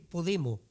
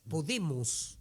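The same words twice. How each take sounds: First: The final s sound is dropped. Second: The final s sound is clearly pronounced. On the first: "no dicen podemos" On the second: "utiliza las S"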